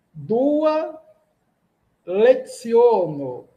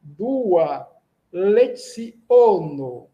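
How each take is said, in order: First: "leziono" with a KS sound for the C, last syllable drawn out slowly; first slow try at "Dua leziono", C as KS; first reading, "leziono" said off. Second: "leziono" with a TS sound for the C, no nasal, very slow; careful Esperanto "leziono", the C as TS; corrected pronunciation. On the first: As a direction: say "leziono" as "lek-SIO-no", slowly. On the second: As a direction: say "leziono" as "le-TSIO-no", unnasalized and drawn out. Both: Shown as a demonstration. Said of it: "o C tem um som de T S".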